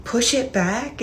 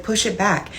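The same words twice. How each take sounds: First: Asking "Push it back?" in disbelief, quieter; puzzled echo of an odd request; confused question. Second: Said in the usual way. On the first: Retold or imitated. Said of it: "And he was like, "Push it back". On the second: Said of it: "And he was like".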